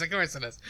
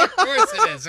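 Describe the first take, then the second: First: Said in the usual way. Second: High, exaggerated sarcastic of course; mock sarcastic. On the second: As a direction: say it sarcastically, pitched way up.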